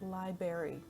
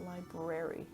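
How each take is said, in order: First: The first R sound is left out. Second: The first R sound is clearly pronounced. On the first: "he always pronounces it library ... He misses that first R" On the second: "not library"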